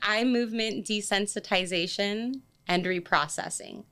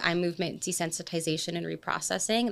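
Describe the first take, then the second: First: It is said slowly and deliberately. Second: It is said at normal conversational speed.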